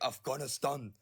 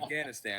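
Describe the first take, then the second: First: It is said with an imitated native-style pronunciation. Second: It is said with a plain American English pronunciation. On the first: The speaker is affecting the original language. The speaker calls it wrong. "that cringe thing that Americans do when they're pronouncing something in another freaking language" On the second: The speaker keeps their own English pronunciation. The speaker calls it right. "No, ... I speak English"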